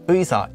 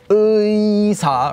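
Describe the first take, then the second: First: The first vowel is said short and simply. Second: The first vowel is drawn out fully. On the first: The speaker calls it right. "Just say 의사" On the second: The speaker calls it wrong. "you don't have to say it fully as 의사"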